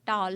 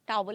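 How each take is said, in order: First: The word is said as one syllable. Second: The word is said as two syllables. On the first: The speaker calls it right. "टाल है" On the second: The speaker calls it wrong. "नहीं होता"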